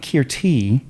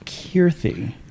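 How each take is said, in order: First: A plain t sound comes before the final vowel. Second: A th sound comes before the final vowel. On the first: The speaker calls it wrong. "It's not Kirti" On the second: The speaker calls it right. "It's like a th at the end"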